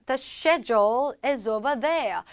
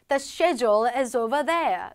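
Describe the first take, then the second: No difference in how they are said.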